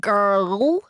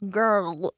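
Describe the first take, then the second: First: Put-on "Girl" with a rolled Scottish r; "Girl" said the Glasgow way, with a hard r; Scottish accent. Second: Put-on "Girl" said the London way, no r at all; English accent. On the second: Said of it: "It hurts my whole face not to say girl". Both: Shown as a demonstration.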